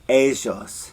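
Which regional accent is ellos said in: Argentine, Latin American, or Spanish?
Argentine. The ll is said in an Argentine accent. "in Argentina, they say ellos"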